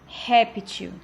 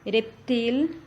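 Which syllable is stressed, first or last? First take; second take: first; last. First: The stress is on the first syllable. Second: The stress is on the last syllable. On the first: This is the Portuguese form. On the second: This is the Spanish form.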